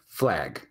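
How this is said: The A is a general American vowel. "Most people in the U S actually say flag"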